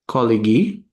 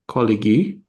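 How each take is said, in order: First: The word is said with three syllables. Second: The word is said with three syllables.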